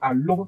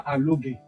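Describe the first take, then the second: First: The name ends with an r sound. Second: The name ends with a g-like syllable. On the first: The speaker calls it right. "C'est Alor" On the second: The speaker calls it wrong. "pas Alogué"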